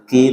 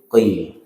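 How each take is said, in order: First: The consonant is light, made at the front. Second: The consonant is heavy, made deep in the throat. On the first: The speaker calls it wrong. "bukan ki" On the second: The speaker calls it right. "tapi qi"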